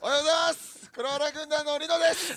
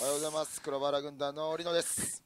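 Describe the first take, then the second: First: It is said with high energy. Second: It is said with low energy.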